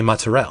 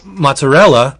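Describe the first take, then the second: First: The final vowel is dropped off the end. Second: The final vowel is fully pronounced.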